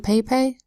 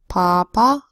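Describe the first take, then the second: First: The vowels are a long 'ay' sound. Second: The vowels are a broad 'ah' sound. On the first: The speaker calls it wrong. "No, we don't say that" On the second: The speaker calls it right. "All of these make the broad A sound ah"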